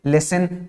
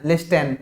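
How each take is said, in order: First: लिसन with a silent t, lis-en; right pronunciation. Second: लिस्टन with the t said aloud; wrong pronunciation. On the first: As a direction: say लिसन with no t sound at all. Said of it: "क्या बोल रहे हैं". (लिसन, टी silent, सही उच्चारण) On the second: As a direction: pronounce लिस्टन sounding the t, the wrong way. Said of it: "लिस्टन नहीं बोल रहे हैं ना". (लिस्टन में टी बोलकर, गलत उच्चारण) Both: Shown as a demonstration.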